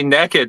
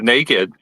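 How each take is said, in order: First: It is said in a Texan way. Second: It is said in a standard way. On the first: "I live in Texas. That's why I say" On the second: "instead of"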